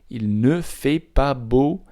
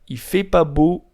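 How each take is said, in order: First: Every word is said, including 'ne'. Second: The 'ne' is left out entirely. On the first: This is the written form. "When it's in written form, the phrase is" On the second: This is how natives speak casually. "When it's spoken by a native Parisian to another, it sounds like this"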